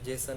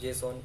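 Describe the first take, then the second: First: The second syllable has a short, reduced vowel. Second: The second syllable has a full open 'aw' vowel. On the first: The speaker calls it wrong. "जेसन नहीं" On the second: The speaker calls it right. "Generally इसका pronunciation जेसॉन होता है"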